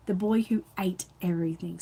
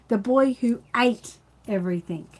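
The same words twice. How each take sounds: First: Said in the usual way. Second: Announcing the title. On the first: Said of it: "See the stickers over the top?". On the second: Shown as a demonstration. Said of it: "the story today is called".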